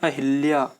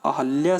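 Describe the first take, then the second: First: An 'i' vowel is heard between 'h' and 'l'. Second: No vowel is heard between 'h' and 'l'. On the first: The speaker calls it wrong. "लेकिन हम लोग बोलते हैं अहिल्या" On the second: The speaker calls it right. "अहल्या सही है"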